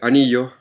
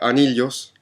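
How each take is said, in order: First: It is said with a Chilean Spanish accent. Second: It is said with a Peruvian Spanish accent. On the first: "en Chile anillos" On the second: "en Perú la gente pronuncia anillos"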